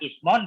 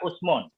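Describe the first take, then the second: First: The first vowel is a front i. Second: The first vowel is a rounded u. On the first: "kasrahnya hamzah" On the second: "dhammah hamzah"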